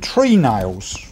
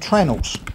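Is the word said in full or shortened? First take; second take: full; shortened. First: Both parts are said fully, as tree nails. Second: The word is shortened and run together as trenals. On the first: This is the name written and spoken properly. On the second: This is how woodworkers in the trade say it.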